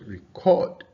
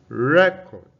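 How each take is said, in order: First: The stress is on the second syllable. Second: The stress is on the first syllable. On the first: It means to save sound or video. "Record is a verb" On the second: It names a document or a disk. "for it as a noun, the stress is on the first syllable"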